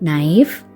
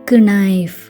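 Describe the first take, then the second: First: The k at the start is silent. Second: The k at the start is pronounced. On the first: This is how it is said today. "வெறும் நைஃப்" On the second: This is how it was said long ago. "ஸ்ட்ரெஸ் கொடுத்து சொல்கிற letters"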